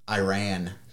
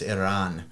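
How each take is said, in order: First: It is said with the usual English pronunciation. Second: It is said the way local people say it.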